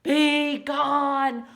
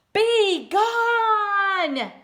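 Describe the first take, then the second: First: Loud, somewhat higher roar; louder demo roar for the child. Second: Loud high bellow; loud high bear roar. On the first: Shown as a demonstration. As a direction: show the child how to roar. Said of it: "Can you roar?". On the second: Acted. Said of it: "roared Bear".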